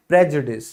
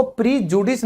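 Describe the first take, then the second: First: प्रेजुडिस with short "prej" opening; correct prejudice pronunciation. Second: प्रीजुडिस with long "pree" opening; mispronounced prejudice. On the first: Teacher giving learners the correct word, प्रेजुडिस said with "prej". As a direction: say प्रेजुडिस starting "prej", not "pree". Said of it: "ये बोला जाता है". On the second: Teacher showing learners the wrong way, प्रीजुडिस said with "pree". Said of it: "इसको प्रीजुडिस नहीं बोलेंगे". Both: Shown as a demonstration.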